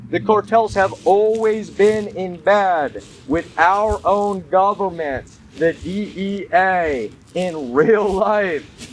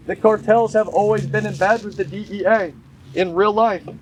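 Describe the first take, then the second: First: Deliberate restatement, stretching "real life"; emphatic repeat. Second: Said in the usual way. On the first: Real, not acted. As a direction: hammer "our own government", drawing out "in real life". Repeats the claim slower for emphasis.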